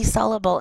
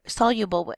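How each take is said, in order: First: "soluble" said as SOL-uh-bul; soluble without y-glide. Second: "soluble" said as SOL-you-bul; soluble with y-glide. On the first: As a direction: say "soluble" with no y before the u. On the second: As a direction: put a clear "you" in the middle of "soluble". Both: Real, not acted. Self-corrects how soluble is said.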